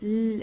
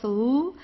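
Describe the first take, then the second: First: The L sound is soft and light. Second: The L sound is strong and heavy. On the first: This is how it sounds in German. "In German, it's L. It's very soft" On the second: This is how it sounds in Russian. "like in Russian, it's uh, like very strong"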